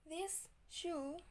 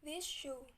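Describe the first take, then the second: First: The word this ends in an s sound. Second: The word this ends in an sh sound.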